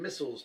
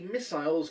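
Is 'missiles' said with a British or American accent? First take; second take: American; British. First: It is said with an American accent. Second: It is said with a British accent.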